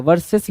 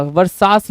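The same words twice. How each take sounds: First: VAR-ses, short second syllable; correct versus. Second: Var-SAAS, long open vowel; misread versus. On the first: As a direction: say वर्सेस with "ses", not "saas". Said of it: "वर्सेस लिखना था". (वर्सेस में "सेस" बोलें) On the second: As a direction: say वर्सास as spelt with "a". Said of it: "वर्सास लिखा हुआ है". (वर्सास में लंबा "सा" बोलें) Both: Shown as a demonstration.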